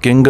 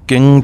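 First: ਕਿੰਗ said with a hard g at the end, "king"; demonstrating the mistaken ਕਿੰਗ with the g sounded; wrong pronunciation shown. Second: ਕਿੰ said as a short nasal "kin" with no g or n sound at the end; correct Gurbani pronunciation. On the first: Teacher warning students against saying ਕਿੰਗ with a hard g. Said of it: "ਕਿੰਗ ਨਹੀਂ ਕਹਿਣਾ". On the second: Teacher showing students the right ਕਿੰ, short and nasal. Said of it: "ਕਿੰ ਪਾਠ ਬੋਲਣਾ ਹੈ". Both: Shown as a demonstration.

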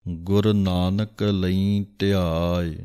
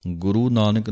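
First: ਗੁਰ said short as gur, no final u; correct pronunciation. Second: ਗੁਰੂ said with a long final u, guru; wrong pronunciation. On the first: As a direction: keep ਗੁਰ short, gur not guru. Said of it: "ਗੁਰ ਲਿਖਿਆ ਹੈ". (ਗੁਰ ਹੀ ਪੜ੍ਹੋ, ਗੁਰੂ ਨਹੀਂ) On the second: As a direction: demo the mistake ਗੁਰੂ instead of ਗੁਰ. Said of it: "ਗੁਰੂ Nanak ਨਹੀਂ ਕਹਿਣਾ ਹੈ". (ਗਲਤ ਉਚਾਰਨ ਗੁਰੂ) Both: Shown as a demonstration.

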